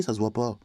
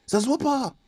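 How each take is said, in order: First: Said in the usual way. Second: High emphatic repeat. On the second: Real, not acted. Ranter insisting origins don't show, high emphatic repeat. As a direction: pitch leaps far up, insistent.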